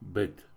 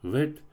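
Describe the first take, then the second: First: It starts with a hard b sound. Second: It starts with a soft v sound. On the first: "твердое" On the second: "мягкое"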